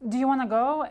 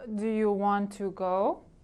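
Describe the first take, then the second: First: The words are shortened and run together. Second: Every word is said fully and clearly. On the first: "My friend always says" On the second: "instead of"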